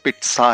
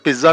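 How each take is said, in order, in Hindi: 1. बीच का व्यंजन अघोष वाला ts ध्वनि है। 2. बीच का व्यंजन घोष वाला dz ध्वनि है। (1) "ये पिट्सा है" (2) "ये वर्ड पिज्जा नहीं है जैसा हम कहते हैं"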